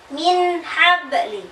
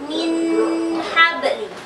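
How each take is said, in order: First: The n is short, clear and unnasalized. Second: The n is nasalized and held long. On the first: The speaker calls it right. "Yang benar" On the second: The speaker calls it wrong. "Jangan didengungkan, tidak boleh lama"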